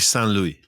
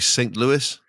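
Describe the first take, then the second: First: It is said the French way. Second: It is said the American way.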